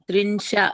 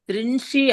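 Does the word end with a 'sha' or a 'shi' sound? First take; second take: sha; shi. First: The word ends with a 'sha' sound. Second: The word ends with a 'shi' sound. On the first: The speaker calls it right. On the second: The speaker calls it wrong.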